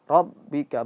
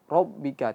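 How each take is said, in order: First: The r is heavy without rounding. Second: The r is heavy with a rounded o sound. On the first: The speaker calls it right. "tapi ro, ro" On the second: The speaker calls it wrong. "jangan o, ro, rob"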